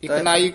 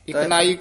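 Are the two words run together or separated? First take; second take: together; together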